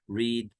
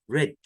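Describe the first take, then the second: First: The vowel is long, like 'reed'. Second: The vowel is short, like 'red'. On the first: This is the present form of the verb. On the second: This is the past participle of the verb.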